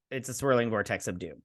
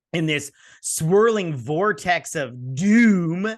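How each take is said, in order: First: Said in the usual way. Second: Slow, louder ominous build on swirling vortex of doom; mock dramatic. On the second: Shown as a demonstration. Mocking the show's plot to viewers, slow ominous trailer voice.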